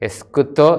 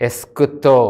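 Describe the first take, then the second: Both takes have the same delivery.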